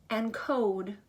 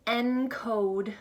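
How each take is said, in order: Both takes have the same delivery.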